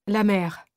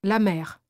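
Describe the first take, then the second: No difference in how they are said.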